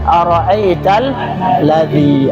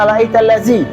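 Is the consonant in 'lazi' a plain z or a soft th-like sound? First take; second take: th-like; plain z. First: The consonant is a soft, thin th-like sound. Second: The consonant is a plain, sharp z sound. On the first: The speaker calls it right. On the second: The speaker calls it wrong.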